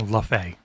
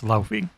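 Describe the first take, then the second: First: The first syllable is a plain 'la' sound. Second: The first syllable is a 'lau' sound. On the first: The speaker calls it wrong. "I hereby ban you from saying Lafay" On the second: The speaker calls it right. "It's Laufey"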